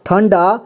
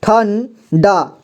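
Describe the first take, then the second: First: Said in the usual way. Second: ठन डा very slowly in two parts; slow syllable-by-syllable ठन डा; ठंडा sounded out. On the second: Shown as a demonstration. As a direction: split it as ठन, pause, डा. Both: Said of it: "तो हम इसे पढ़ेंगे".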